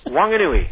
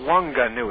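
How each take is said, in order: First: The G is not pronounced as a hard G. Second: The G is pronounced as a hard G. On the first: The speaker calls it right. "It's not the hard G" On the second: The speaker calls it wrong. "You don't say Wanganui"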